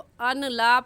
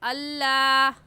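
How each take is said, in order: First: The n is pronounced separately before the l. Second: The n disappears into a doubled l. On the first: The speaker calls it wrong. "अन ला पढ़ना गलत होगा" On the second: The speaker calls it right. "सही है अल्लाह"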